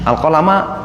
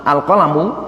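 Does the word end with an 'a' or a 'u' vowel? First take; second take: a; u. First: The word ends with an 'a' vowel. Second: The word ends with a 'u' vowel. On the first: At the time the pen was created, it was told to write. The speaker calls it right. "Al-qalama mansub" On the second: The pen was the very first thing created. The speaker calls it wrong. "Kalau al-qalamanya dibaca dhammah"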